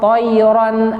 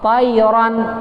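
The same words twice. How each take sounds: First: The first vowel is rounded like 'o'. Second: The first vowel is open like 'a'. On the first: The speaker calls it wrong. "itu keliru" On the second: The speaker calls it right. "mestinya ta"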